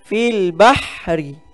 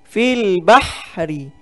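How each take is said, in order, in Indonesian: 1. Bunyi h itu bunyi kasar dari tenggorokan. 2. Bunyi h itu bunyi kasar dari tenggorokan.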